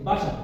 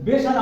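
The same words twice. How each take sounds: First: বাসা with a clear open ba sound; teacher gives students the right reading বাসা, clear correct pronunciation. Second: Put-on বেসার read with the old letter name be, not ba; teacher shows students the wrong reading বেসার, wrong old-style pronunciation. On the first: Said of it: "আমরা কি বলি?". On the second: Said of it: "বেসার আমরা বলি না". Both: Shown as a demonstration.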